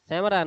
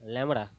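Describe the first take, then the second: First: The word begins with an S sound. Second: The word begins with an L sound. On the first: The speaker calls it wrong. "સેમરા નહીં ભાઈ" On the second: The speaker calls it right. "સેમરા નહીં લેમડા"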